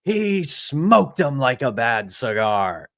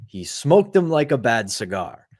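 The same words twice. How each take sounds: First: Slow, drawn-out baritone sportscaster impression; imitated baritone catchphrase, slow and ringing; Mike Lange's signature baritone. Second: Lightly imitated broken-English accent; a hint of broken English, retold; Jagr's broken-English accent. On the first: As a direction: stretch it out like a signature goal call. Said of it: "Lange throws with his signature baritone". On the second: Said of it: "in his broken English, with his accent, through laughter".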